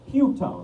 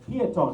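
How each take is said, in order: First: The name begins with a 'pew' sound. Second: The name begins with a 'pee-oh' sound. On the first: The speaker calls it wrong. "not Pewtone" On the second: The speaker calls it right. "It's Piatone"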